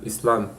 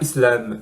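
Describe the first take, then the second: First: The second syllable has an 'a' vowel. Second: The second syllable has an 'e' vowel. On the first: The speaker calls it right. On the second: The speaker calls it wrong.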